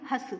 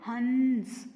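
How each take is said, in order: First: हस said with a plain open a and no nasal hum; without the nasal. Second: हंस with a clear nasal hum after the a, from the nose. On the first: Teacher showing children हस without the anusvara, plain. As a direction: say हस bare, no anusvara sound. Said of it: "इसको नहीं बोलेंगे तो हम कैसे बोलेंगे". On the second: Teacher showing children हंस with the anusvara, nasal and a bit louder. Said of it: "और इसको लगाने पे". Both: Shown as a demonstration.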